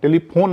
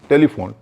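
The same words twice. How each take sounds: First: The 'ph' is said as an aspirated p. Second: The 'ph' is said as a lip-teeth f. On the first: The speaker calls it wrong. "टेलीफोन नहीं है वो" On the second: The speaker calls it right. "पीएच हो तब भी फ है"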